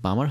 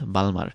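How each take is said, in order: First: It is said without an L sound. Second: It is said with an L sound. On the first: The speaker calls it right. "এটার উচ্চারণটা কিন্তু বামার হবে" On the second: The speaker calls it wrong. "Not বালমার"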